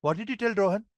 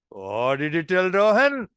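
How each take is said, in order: First: Said in the usual way. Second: Slow teasing question with a lilt; amused, expecting mischief. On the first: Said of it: "it all depends on my objective". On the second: Shown as a demonstration. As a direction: ask as if the rascal did something funny. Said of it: "rascal to have done something funny".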